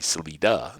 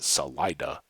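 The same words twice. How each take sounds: First: It is pronounced with Spanish sounds. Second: It is pronounced with local English sounds. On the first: It is the original Spanish word. "in Spanish is exit. Uh, but then it would be Salida" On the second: It is how locals say the town name. "that's kind of the Colorado um, Colorado version"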